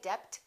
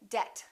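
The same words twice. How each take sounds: First: The B before the T is pronounced. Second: The B before the T is not pronounced. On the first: The speaker calls it wrong. "Don't say" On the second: The speaker calls it right. "the silent B"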